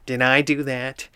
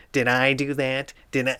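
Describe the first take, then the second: First: Steve Urkel impression. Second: Nerdy sitcom catchphrase voice, more put on; hammed-up nerd apologizing; a fuller Urkel whine; Steve Urkel impression. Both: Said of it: "Steve Urkel just coming in and going".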